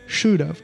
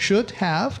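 First: The words run together into a reduced form. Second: Both words are pronounced fully and separately. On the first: The speaker calls it right. "在口语都不是这样读的，是读should have" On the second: The speaker calls it wrong. "学校当中老师教的都是should have"

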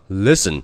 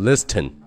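First: The t in the middle is silent. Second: The t in the middle is pronounced. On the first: The speaker calls it right. "读作listen" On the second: The speaker calls it wrong. "那你肯定不能读成listen"

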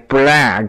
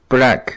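First: The vowel is said with the mouth spread wide. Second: The vowel is said with the mouth barely open. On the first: The speaker calls it right. "你一定要把这个嘴咧开" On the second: The speaker calls it wrong. "我们中国人发音都很内敛"

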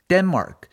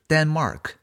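First: The final k is said lightly. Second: The final k is said strongly. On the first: The speaker calls it right. "这个科呢也要轻发" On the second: The speaker calls it wrong. "而不是"

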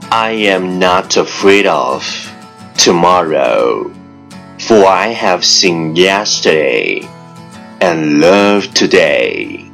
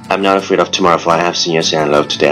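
First: The sentence is spoken at a normal pace. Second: The sentence is spoken very fast in one breath. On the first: "let's repeat after me" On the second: "一口气，最快语速"

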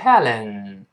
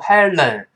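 First: The l is held with no tongue flick. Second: The l is flicked like a Chinese pinyin l. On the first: The speaker calls it right. "舌尖往前指抬起来跟上牙膛粘一下" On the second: The speaker calls it wrong. "舌尖注意不要像汉语拼音一样勾舌头，不是读Helen"

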